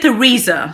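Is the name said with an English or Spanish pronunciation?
English. The name is said with an English pronunciation. The speaker calls it right.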